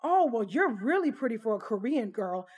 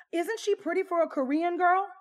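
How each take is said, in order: First: Exaggerated singsong gushing, swooping pitch; mock a tipsy guest's overdone compliment; imitated gushing compliment. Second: High, loud, overdone gushing; imitated gushing question. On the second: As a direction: turn to the table, mock-gushing for agreement. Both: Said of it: "She continued on to say".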